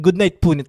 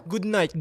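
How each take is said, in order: First: Called out, louder, to a viewer; loud goodnight to a viewer named Punit. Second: Said in the usual way. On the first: Real, not acted. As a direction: call the goodnight out warmly across the stream.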